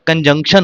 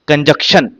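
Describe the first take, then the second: First: The middle syllable has an n sound. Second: The middle syllable has no n sound. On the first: The speaker calls it right. "कंजंक्शन होता है" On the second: The speaker calls it wrong. "कितने लोग तो बोलते भी गलत हैं"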